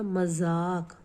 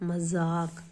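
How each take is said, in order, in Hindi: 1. बीच का व्यंजन z ध्वनि है। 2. बीच का व्यंजन z ध्वनि है।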